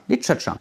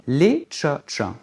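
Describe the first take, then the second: First: "les tcha-tcha" run together quickly and higher; said fast. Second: "les tcha-tcha" in three separated syllables. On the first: Teacher gives the finished word, quick joined "les tcha-tcha". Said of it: "quand on prononce vite". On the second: Teacher assembles the word, separated "les tcha-tcha". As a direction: say "les tcha-tcha" piece by piece, reduced vowels. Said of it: "on condense la syllabe". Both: Shown as a demonstration.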